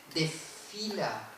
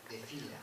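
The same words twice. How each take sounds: First: "desfila" stretched very slowly, the S aspirated into a long F; "desfila" spoken slowly with a geminate F; slow drawn-out demo. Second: "desfila" softer and lower with a short F; the second "desfila", quieter, without the long F; quiet contrasting take. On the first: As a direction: draw out "desfila" with a long doubled F. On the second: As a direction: drop the voice for a plain "desfila". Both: Shown as a demonstration. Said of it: "tienen significado distinto".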